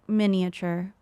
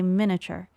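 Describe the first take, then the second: First: The middle 'i' syllable is pronounced fully. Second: The middle 'i' syllable is dropped entirely. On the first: This is how others say it. "I think I've heard it miniature" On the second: This is how the speaker says it. "but I think I say miniature"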